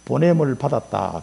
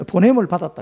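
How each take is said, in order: First: 보냄을 stressed, slow, falling; slow emphasis. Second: Said in the usual way. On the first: Shown as a demonstration. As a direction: lean on 보냄을 and let the phrase fall slowly. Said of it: "그런 뜻, 실로암". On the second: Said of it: "이게 보냄을 받았다는 뜻이다".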